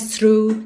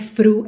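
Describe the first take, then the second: First: The word begins with an s sound. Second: The word begins with an f sound. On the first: "Não é S, não é through" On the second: "não é F, não é fru"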